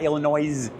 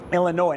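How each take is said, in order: First: The word ends with an S sound. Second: The word ends without an S sound. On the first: The speaker calls it wrong. "No extra S at the end" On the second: The speaker calls it right. "No S at the end"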